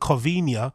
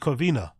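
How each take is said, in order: First: The word ends with an added 'nee-ah' sound. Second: The word ends with a plain 'nah' sound. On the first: The speaker calls it wrong. "he puts an accent on the N on here to make it sound Covinia" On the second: The speaker calls it right. "when it's actually Covina"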